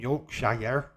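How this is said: It is said in an American accent. The speaker calls it wrong. "I'm not from Yorkshire"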